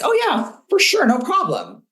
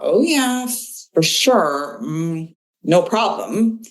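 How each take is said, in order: First: It is said in a willing, confident tone. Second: It is said in a hesitant, reluctant tone. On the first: The person will gladly do the task. "That sounds like a pretty affirmative response" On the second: The task will probably not get done in time. "their tone and body language are actually telling you a very different message"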